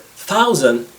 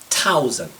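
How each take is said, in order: First: It begins with a soft 'th' sound. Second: It begins with a hard 't' sound.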